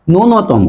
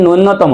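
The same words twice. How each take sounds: First: ন্যূনতম as "nunotomo", single n; correct pronunciation. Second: নূন্যতম with doubled n; wrong pronunciation. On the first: Teacher corrects the error, single middle n in ন্যূনতম. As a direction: say ন্যূনতম without doubling n. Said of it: "উচ্চারণ হবে". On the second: Teacher rejects the common error, nn in নূন্যতম. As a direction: say "nunnotomo" for নূন্যতম. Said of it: "উচ্চারণ হবে নূন্যতম না". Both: Shown as a demonstration.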